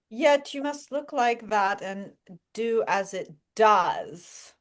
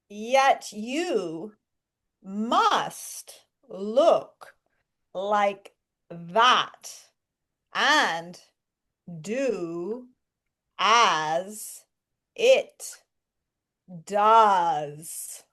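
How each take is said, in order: First: It is said at a quicker pace. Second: It is said slowly and clearly.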